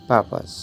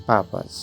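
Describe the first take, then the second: Both takes have the same delivery.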